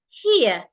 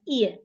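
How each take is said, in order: First: The word starts with an audible h sound. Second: The word starts without an h sound. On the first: The speaker calls it right. "I will pronounce it as here, The H should be heard" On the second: The speaker calls it wrong. "I will not pronounce this word as ear"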